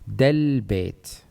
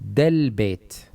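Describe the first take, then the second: First: The words run together as one joined unit. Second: The words run together as one joined unit.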